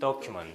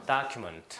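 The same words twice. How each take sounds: First: The first vowel is a rounded 'o' sound. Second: The first vowel is an open 'ah' sound. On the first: "영국 발음은 이렇게 돼요" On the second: "미국 발음은 이렇게 되고요"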